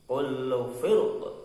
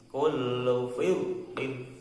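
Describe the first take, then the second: First: The phrase stops without the -in ending. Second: The phrase ends with the -in ending. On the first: The reciter stops at this word. "kalau wakof begitu" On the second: The reciter continues into the next words. "kalau wasol kullu firqin"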